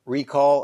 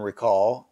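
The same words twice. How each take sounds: First: "recall" as a noun, REE-call; stress on first syllable. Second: "recall" as a verb, ree-CALL; stress on second syllable. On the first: Showing viewers the noun form, "recall" stressed REE-call. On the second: Showing viewers the verb form, "recall" stressed ree-CALL. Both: Shown as a demonstration. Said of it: "pronounced differently if they're a verb or a noun".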